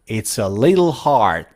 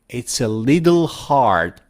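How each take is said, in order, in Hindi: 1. 'little' में t, नरम d जैसा सुनाई देता है। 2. 'little' में t, नरम d जैसा सुनाई देता है।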